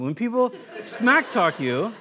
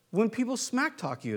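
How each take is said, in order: First: "smack" slowed and stressed, with a laugh; slow, amused stress. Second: Said in the usual way. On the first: Shown as a demonstration. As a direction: savour "smack talk" slowly, laughing. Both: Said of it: "That's not King James Version".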